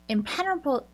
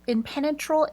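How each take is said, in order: First: "impenetrable" slurred as im-PEN-uh-bl, dropping the t-r; slip of the tongue. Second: "impenetrable" said fully as im-PEN-e-tra-ble, a little higher; corrected pronunciation. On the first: Describing the Sun Crusher, "impenetrable" fumbled and clipped short. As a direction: stumble over "impenetrable", swallowing the middle syllables. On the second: Retrying the word for the Sun Crusher, "impenetrable" said in full. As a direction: fix "impenetrable" by saying every syllable. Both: Real, not acted.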